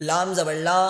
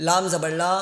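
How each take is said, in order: The two takes are said the same way.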